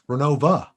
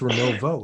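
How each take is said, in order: First: The name ends with an 'uh' sound. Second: The name ends with an 'oh' sound. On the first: This is how the locals say it. The speaker calls it wrong. "everybody around here, you know, I grew up in Lock Haven, says Renova" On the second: This is how it is written on the map. The speaker calls it right. "it's it's Renovo, isn't it?"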